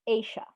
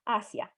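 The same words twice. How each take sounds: First: The name is said with an English pronunciation. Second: The name is said with a Spanish pronunciation.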